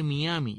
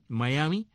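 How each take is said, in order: First: "Miami" read letter-for-sound, mee-AH-mee; spelling pronunciation. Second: "Miami" as mah-YAH-mee; phonetic pronunciation. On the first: Host explains how it is written, "Miami" as mee-AH-mee. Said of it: "entonces se escribe Miami". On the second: Host explains the English spelling, "Miami" as mah-YAH-mee. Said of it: "de acuerdo con la fonética". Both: Shown as a demonstration.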